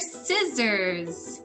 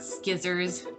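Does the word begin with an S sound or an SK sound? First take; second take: S sound; SK sound. First: The word begins with a soft S sound. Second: The word begins with a hard SK sound. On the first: The speaker calls it right. "they are scissors" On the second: The speaker calls it wrong. "I used to call them skizzers. They are not skizzers"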